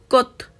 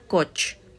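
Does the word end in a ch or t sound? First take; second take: t; ch. First: The word ends in a t sound. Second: The word ends in a ch sound. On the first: The speaker calls it right. "suena cot" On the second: The speaker calls it wrong. "no suena coch"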